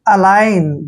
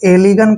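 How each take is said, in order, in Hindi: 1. g silent है, जैसे a-line. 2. g बोला जाता है, जैसे e-li-gan. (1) "जी का उच्चारण हमने नहीं करना है" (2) "आप इसको एलिगन पढ़ेंगे जो कि गलत है"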